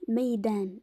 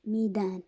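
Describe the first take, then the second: First: ميدان with fatha, the meem said ma as in maydān; ميدان pronounced maydān; ميدان said maydān, with an a on the first letter; correct pronunciation. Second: ميدان with kasra, the meem said mi as in mīdān; ميدان said mīdān, with an i vowel; wrong pronunciation. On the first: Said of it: "بفتح الميم". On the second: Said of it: "مش ميدان". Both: Shown as a demonstration.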